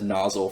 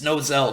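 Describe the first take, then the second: First: The name sounds like the word 'nozzle'. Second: The name does not sound like 'nozzle'. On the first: This is how the speaker has always said it. The speaker calls it wrong. "I've said nozzle for like four years" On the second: This is how others say the name. The speaker calls it right. "so many corrections of people in my videos saying it's Nozel"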